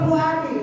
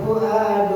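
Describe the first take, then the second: First: The word ends in an i vowel. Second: The word ends in a u vowel. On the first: The speaker calls it wrong. "Eh dia teriak, maka zabal fuadi" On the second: The speaker calls it right. "Maka zabal fuadu maroa"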